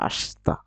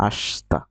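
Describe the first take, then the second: The two takes are said the same way.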